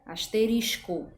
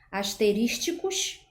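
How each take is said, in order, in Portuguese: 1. Não são inseridos sons extras no meio. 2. Sons extras são inseridos no meio. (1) "a pronúncia adequada seria asterisco" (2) "inserção de sons no meio da palavra... pronúncia inadequada"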